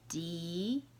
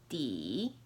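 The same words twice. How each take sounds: First: The pitch rises from middle to high. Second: The pitch dips low, then rises.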